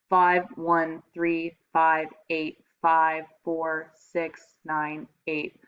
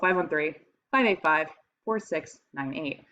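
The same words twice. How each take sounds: First: The digits are spoken as one even stream. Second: The digits are grouped into three chunks with pauses. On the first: It is just a string of separate numbers. "the stream of numbers is ... It's all one" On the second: It is a phone number that is easier to remember. "if I'm saying like a phone number"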